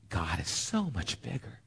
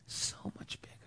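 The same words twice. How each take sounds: First: Quiet. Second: So much bigger in a bare unvoiced whisper; whispered echo. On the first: Acted. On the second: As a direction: breathe the repeat, all air and no voice.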